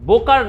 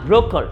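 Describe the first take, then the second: First: It starts with b, with no r sound. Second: It starts with br, an r after b. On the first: The speaker calls it wrong. "বোকার না" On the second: The speaker calls it right.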